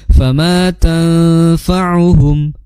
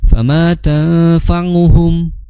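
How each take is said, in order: First: The ain is voiced in the throat, not nose. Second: The ain is voiced through the nose. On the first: The speaker calls it right. "yang tepat" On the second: The speaker calls it wrong. "membaca ain dengan nga itu melibatkan suara hidung, maka kurang tepat"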